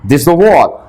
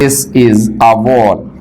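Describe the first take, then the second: First: It is said fast and clipped. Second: It is said slowly and fully.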